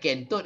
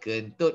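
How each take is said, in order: First: The first vowel is a full vowel. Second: The first vowel is a weak schwa. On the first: The speaker calls it wrong. "dia bukan kentut kan" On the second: The speaker calls it right. "dia kentut kan"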